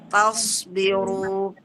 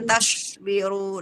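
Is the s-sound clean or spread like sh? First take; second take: clean; sh-like. First: The s-sound is clean, with no sh-like spreading. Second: The s-sound spreads, sounding partly like sh. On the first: The speaker calls it right. "harus bersih ya Bun" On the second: The speaker calls it wrong. "jangan tasbiru ... itu ada tafasinya"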